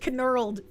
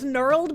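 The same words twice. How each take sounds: First: The K at the start is sounded. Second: The K at the start is silent. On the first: The speaker calls it right. "So I prefer pronouncing it as knurled" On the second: The speaker calls it wrong. "the K in knurled is silence. ... I don't like pronouncing it as knurled because it makes me think of Nermal"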